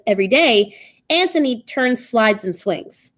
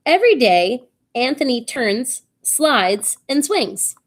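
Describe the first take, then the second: First: "turns slides and swings" in one run, no breaks; commas changed, run together. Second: "turns", "slides", "and swings" as three separate items; list with pauses. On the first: Teacher showing changed commas, "turns slides and swings" run together. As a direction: join "turns" straight onto "slides and swings". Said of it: "with the commas changed". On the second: Teacher reading comma example, breaks between "turns", "slides", "and swings". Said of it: "So in this example, it says". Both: Shown as a demonstration.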